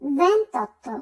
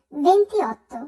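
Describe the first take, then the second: First: "ventotto" with no i, ven-tot-to; correct ventotto. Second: "ventiotto" with the i sounded, ven-ti-ot-to; wrong venti-otto. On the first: Teacher correcting twenty-eight, elided "ventotto". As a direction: merge it into three syllables, "ventotto". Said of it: "আমরা উচ্চারণ করব". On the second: Teacher showing a mistake in twenty-eight, unjoined "ventiotto". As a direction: keep i before o in "ventiotto". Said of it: "এটি আসলে ভুল উচ্চারণ". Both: Shown as a demonstration.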